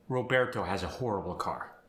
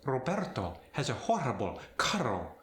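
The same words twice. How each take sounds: First: Said in the usual way. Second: Spanish accent. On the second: Shown as a demonstration. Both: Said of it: "A more aggressive rolled R".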